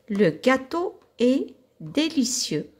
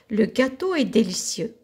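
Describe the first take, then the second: First: It is read at a slower pace. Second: It is read at a faster pace.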